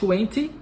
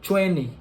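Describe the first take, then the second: First: It is said with a British pronunciation. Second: It is said with an American pronunciation. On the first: "Em alguns lugares pode ser falado twenty, ... na Grã-Bretanha" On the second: "no inglês americano é mais comum a gente ouvir a pronúncia twenty"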